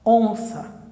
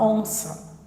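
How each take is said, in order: First: The final vowel is a weak schwa. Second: The final vowel is a weak schwa.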